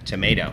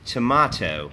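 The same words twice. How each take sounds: First: It is said with an American accent. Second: It is said with a British accent. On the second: "หรือชาวอังกฤษออกเสียงว่า"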